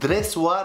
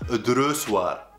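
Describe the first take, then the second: First: The first vowel sounds like 'e'. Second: The first vowel sounds like 'o'. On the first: The speaker calls it right. "تقال دريسوار" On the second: The speaker calls it wrong. "وليس دروسوار"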